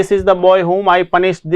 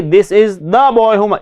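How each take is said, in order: First: Put-on slow, stressing the boy; slow dictation. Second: Very slow, leaning on the; stressed the. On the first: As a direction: read it out for the class. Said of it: "यहाँ पे देखिए". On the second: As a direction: point the class to the. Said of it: "देखिए यहाँ पे देखिए". (the पर ज़ोर) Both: Shown as a demonstration.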